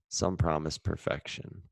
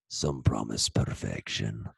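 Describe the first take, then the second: First: It is read in a normal voice. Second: It is read in a put-on voice.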